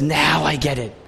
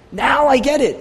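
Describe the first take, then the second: First: Said in the usual way. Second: The penny drops, say it with joy; sudden realization. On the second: Acted. Jonah grasping salvation, an excited burst of realization.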